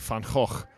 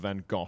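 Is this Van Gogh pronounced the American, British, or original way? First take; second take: original; British. First: It is the original native pronunciation of the name. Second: It is the British pronunciation, with an F-like sound. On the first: "no one's got the guts to just say Van Gogh. Which is the real" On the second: "the British tend to go for Van Gogh. With a sort of F sound"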